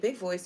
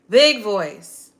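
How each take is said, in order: First: It is said at a normal speaking volume. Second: It is said loudly, projected to fill the room. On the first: "instead of just saying big voice" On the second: "like really project your voice"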